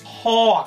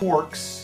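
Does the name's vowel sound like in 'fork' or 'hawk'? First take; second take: hawk; fork. First: The vowel sounds like the one in hawk. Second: The vowel sounds like the one in fork. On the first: The speaker calls it right. "It's Hawkz. ... Does not rhyme with fork" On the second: The speaker calls it wrong. "It is not Hawkz"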